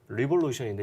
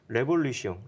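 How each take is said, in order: First: It is pronounced with English sounds. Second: It is pronounced with French sounds. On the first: "영어로는" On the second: "불어 이 프랑스인이었으니까"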